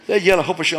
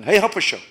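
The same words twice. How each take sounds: First: Said in the usual way. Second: Loud friendly call across the room; hey, Hopusha called out loud. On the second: Retold or imitated. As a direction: shout the name to get his attention.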